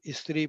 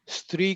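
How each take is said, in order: First: The word is pronounced loosely and imprecisely. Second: The word is pronounced carefully and precisely. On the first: The speaker calls it wrong. "हम स्त्री pronounce करते हैं" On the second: The speaker calls it right. "स्त्री का शब्द आया"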